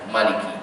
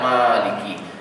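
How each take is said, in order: First: The first vowel is kept short. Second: The first vowel is held long. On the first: "Malikin Nas tu pendeklah bacanya" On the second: "Dalam Al-Fatihah ni kita baca panjang"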